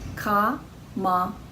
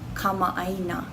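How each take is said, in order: First: It is said slowly, syllable by syllable. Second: It is said quickly as one smooth word. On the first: "sound those two out slowly" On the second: "Say it quickly all together"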